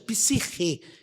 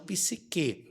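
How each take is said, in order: First: The middle consonant is a raspy h sound. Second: The middle consonant is a hard k sound. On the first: The speaker calls it right. "corretamente nessa pronúncia psirre" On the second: The speaker calls it wrong. "e não psique"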